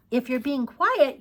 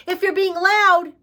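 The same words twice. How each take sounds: First: Said in the usual way. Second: Loud, high teacher voice; pitched up and noisy to make the point; demonstrating loud. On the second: Shown as a demonstration. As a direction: raise the voice to show being loud.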